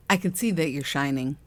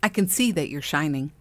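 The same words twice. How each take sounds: First: Repeating it through a laugh. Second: Imitating a gushing admirer, lightly voiced; a light mock of someone gushing "I can see that you're shining". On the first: Retold or imitated. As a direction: laugh while saying "I can see that you're shining". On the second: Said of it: "in that voice".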